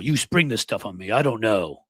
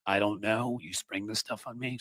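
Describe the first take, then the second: First: Said in the usual way. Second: Sarcastic echo. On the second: Retold or imitated. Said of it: "Sounds a lot like".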